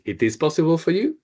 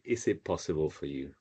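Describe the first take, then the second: First: "It is possible for you?" with a high rising finish on "you"; question rise at the end. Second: Said in the usual way. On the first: Shown as a demonstration. Teacher modelling a rising-intonation question for Naomi. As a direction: lift the last word "you" up into a question. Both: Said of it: "we raise our voice at the end".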